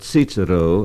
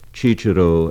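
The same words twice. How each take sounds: First: The word begins with a ts sound. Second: The word begins with a ch sound. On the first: This is the German pronunciation. "or Cicero as in German" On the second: This is the Italian pronunciation. "Cicero as it is in Italian"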